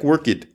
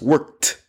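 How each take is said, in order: First: The word is read out the way it is spelled. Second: The word is said the way speakers normally say it. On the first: The speaker calls it wrong. "It looks like worked" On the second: The speaker calls it right. "but it's pronounced worked"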